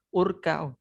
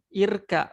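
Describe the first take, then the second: First: The word begins with a u vowel. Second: The word begins with an i vowel. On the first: The speaker calls it wrong. "bukan urka" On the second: The speaker calls it right. "Kenapa hamzanya saya baca kasro?"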